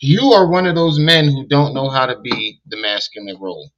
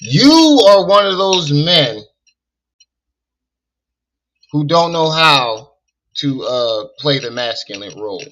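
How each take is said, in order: First: It is said in the speaker's normal voice. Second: It is said imitating the other man's way of talking.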